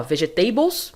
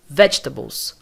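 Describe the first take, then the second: First: Vegetables as veh-zheh-TAY-bols, rising at the end; wrong pronunciation. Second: Vegetables as VETCH-tuh-bols, stressed at the front, falling; correct pronunciation. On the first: (vegetables errado, como vejeTEIbous) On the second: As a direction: hit VETCH and reduce the rest of Vegetables. (Vegetables correto, como VÉTCHtabous) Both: Shown as a demonstration.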